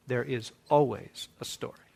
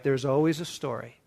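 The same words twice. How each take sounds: First: Softer, with weight on "always"; softer emphatic repeat. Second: Said in the usual way. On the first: Shown as a demonstration. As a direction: lean into "always", drop the voice.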